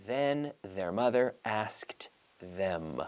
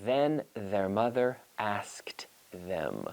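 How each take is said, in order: First: "Then their mother asked them" very slow with a voiced th; slowly, carefully, tongue out on "Then"; slow model read. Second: Whispered, very slow "Then their mother asked them"; slow whispered twister. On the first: Teacher modelling the tongue twister slowly for practice at home. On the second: Teacher whispering the tongue twister slowly for students to try at home. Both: Shown as a demonstration. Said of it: "So try it at home".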